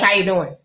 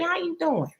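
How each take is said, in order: First: It is said flatly, like to a stranger. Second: It is said warmly, with caring interest. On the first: The asker treats you like a stranger. The speaker calls it wrong. "That could have been a stranger off the street" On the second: The asker genuinely cares how you are. The speaker calls it right. "y'all see how I said that?"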